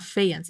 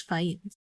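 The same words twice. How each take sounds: First: Faïence said the rejected way, read as a guess; faïence in its wrong first reading; faïence as the version being ruled out; wrong pronunciation. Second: Faïence said the corrected way, landing on it softly; faïence as the settled reading, said quietly; faïence said the right way; corrected pronunciation. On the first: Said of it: "So it's not faïence". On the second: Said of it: "it's faïence". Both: Shown as a demonstration.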